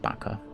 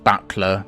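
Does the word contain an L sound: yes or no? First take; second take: no; yes. First: The word is said without an L sound. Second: The word is said with an L sound. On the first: "I've always pronounced it bucker" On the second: "I know it's pronounced buckler"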